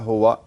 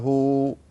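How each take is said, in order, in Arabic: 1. تنتهي الكلمة بحركة قصيرة زائدة. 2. الكلمة تقف على حرف ساكن. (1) "لا تفتح الواو إذا وقفت، يعني لا تقول" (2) "الصحيح"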